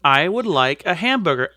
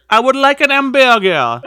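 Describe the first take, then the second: First: Said in the usual way. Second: Louder, hammed-up French accent; mock French accent. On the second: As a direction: order it like a Frenchman in a cartoon.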